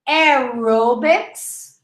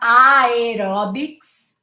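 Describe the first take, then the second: First: The first syllable sounds like 'arrow'. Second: The first syllable has a spelled-out 'air' vowel. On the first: The speaker calls it right. "just say arrow" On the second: The speaker calls it wrong. "not aerobics"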